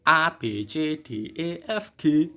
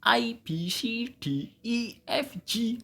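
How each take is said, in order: First: A, B, C, D, E, F, G read the Indonesian way, ah-bay-chay-day; Indonesian letter names. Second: A, B, C, D, E, F, G read the English way, high-pitched ay-bee-see-dee; English letter names. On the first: Teacher showing students the Indonesian alphabet, Indonesian letter names. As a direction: recite A B C D E F G with pure Indonesian vowels. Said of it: "Kalau dalam bahasa Indonesia itu". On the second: Teacher contrasting the English alphabet, high English letter names. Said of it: "Kalau dalam bahasa Inggris". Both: Shown as a demonstration.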